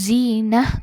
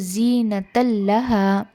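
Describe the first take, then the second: First: The word ends in an h sound, then stops. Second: The word ends in a t sound, joined onward. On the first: The reciter pauses here to take a breath. "अगर आप रोकना चाहते हैं सांस लेने के लिए, पॉज लेने के लिए" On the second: The reciter continues without pausing. "अगर आप कंटिन्यूएशन कर रहे हैं"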